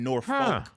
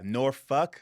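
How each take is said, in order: First: The ending sounds like 'folk'. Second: The ending sounds like 'fuk'. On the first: The speaker calls it wrong. "It's not" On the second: The speaker calls it right. "There's no folk. the F U K"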